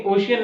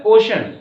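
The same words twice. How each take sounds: First: ओशियन said o-shi-yan; wrong pronunciation. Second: ओशन as two syllables, OH-shun, loud; correct pronunciation. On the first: Teacher rejects the wrong reading for students, mispronounced. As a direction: say ओशियन with an extra "i" before the last vowel. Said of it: "लेकिन ओशियन नहीं होता है". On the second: Teacher gives students the right word, emphatically corrected. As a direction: say ओशन firmly with a sh and no "i". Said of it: "क्या होता है?". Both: Shown as a demonstration.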